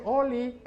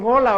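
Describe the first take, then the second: First: Mock the cute "oli" for hola; cutesy oli. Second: Said in the usual way. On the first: Shown as a demonstration. Preacher teasing youth slang to the church, cutesy laughing "oli". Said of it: "hoy dicen". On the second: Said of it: "Hoy ya no dicen "hola", hoy dicen "oli".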